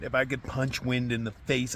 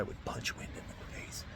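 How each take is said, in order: First: Said in the usual way. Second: Breathy whisper, words dropping away. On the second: Real, not acted. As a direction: mutter the punchline under your breath. Venting at the storm in tent.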